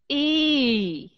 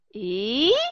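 First: The pitch falls through the vowel. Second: The pitch rises through the vowel. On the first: "Đi xuống là như thế này" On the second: "đi lên là như thế này"

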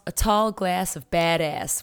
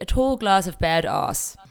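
First: It is said in a North American accent. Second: It is said in a non-North American accent. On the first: "I kind of had to put on my best North American accent for it" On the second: "for us it'll be a tall glass of badass"

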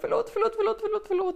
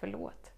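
First: It is said nervously and anxiously. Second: It is said warmly and sincerely. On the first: The apology comes from fear of offending. The speaker calls it wrong. "inte så här som att åh nej, jag vill inte göra någon förnärmad" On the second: The apology is sincere and wholehearted. The speaker calls it right. "du kan verkligen säga förlåt, och det vibrerar i hela kroppen"

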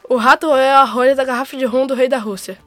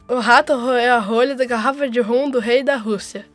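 First: It is said at a faster pace. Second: It is said at a slower pace.

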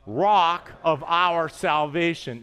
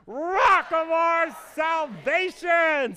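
First: The phrase is said in a plain, calm way. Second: The phrase is shouted out in a joyful way. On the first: "say that with me" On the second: "Now let's do it joyfully"

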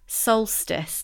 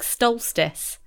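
First: The word begins with a plain 's' sound. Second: The word begins with an 'st' sound. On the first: The speaker calls it right. "that's how you say it" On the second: The speaker calls it wrong. "there should be an it should be ST, like stolstice. But I know it's not"

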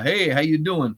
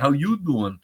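First: It is said in a plain, ordinary voice. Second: It is said in an imitation of Joey.

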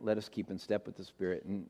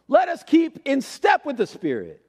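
First: It is said in a calm, gentle voice. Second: It is said as a forceful, commanding order. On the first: It is read as a gentle invitation. "I'm reading it in a calm voice" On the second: It is an order that must be obeyed. "That would be the command version"

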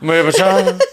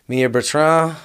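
First: The name is said very fast. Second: The name is said at normal speed.

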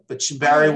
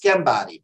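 First: The name begins with an SH sound. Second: The name begins with a K sound. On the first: This is how the family says it at home. "but Shambari works fine for me" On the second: This is how it is said in Italy. "in Italy it's Shambari"

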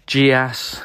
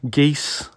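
First: Soft j start, two syllables ending in 'ass'. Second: Hard g start, one syllable ending in 'eess'. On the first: The speaker calls it wrong. "with the soft G and the ass at the end" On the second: The speaker calls it right. "more correctly pronounced geese"

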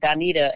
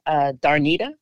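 First: The name is said without an R sound. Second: The name is said with an added R sound. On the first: The speaker calls it right. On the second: The speaker calls it wrong.

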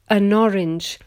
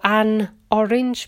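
First: The n runs straight into the next word. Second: The n stays separate from the next word.

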